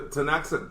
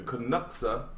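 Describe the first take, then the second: First: The name begins without a K sound. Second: The name begins with a K sound. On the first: The speaker calls it right. "the K is silent" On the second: The speaker calls it wrong. "I'm gonna mispronounce this probably"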